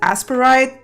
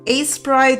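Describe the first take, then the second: First: The name is said with three syllables. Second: The name is said with two syllables. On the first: The speaker calls it wrong. "I always pronounce it Asperite. Probably wrong" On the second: The speaker calls it right. "Asprite sounds kind of right"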